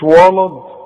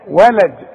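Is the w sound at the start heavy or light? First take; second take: heavy; light. First: The w sound is heavy and thick. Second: The w sound is light and thin. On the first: The speaker calls it wrong. "مش" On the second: The speaker calls it right. "الواو دائما وا وا"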